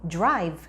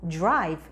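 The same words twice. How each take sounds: Both takes have the same delivery.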